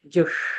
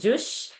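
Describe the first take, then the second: First: The sh is made with tongue touching the roof. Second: The sh is a plain sh, as in Sheila. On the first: The speaker calls it right. "I'm saying jush" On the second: The speaker calls it wrong. "I'm not saying jush"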